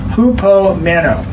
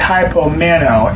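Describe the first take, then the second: First: The first syllable sounds like "who". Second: The first syllable sounds like "high". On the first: "which is actually sounds like hupomeno" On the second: "The verb is hypomeno"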